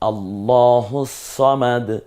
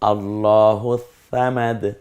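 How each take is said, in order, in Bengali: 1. samad শুরু হয় একটা ভারী, এমফ্যাটিক s ধ্বনি দিয়ে। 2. samad শুরু হয় একটা নরম, th-এর মতো ধ্বনি দিয়ে।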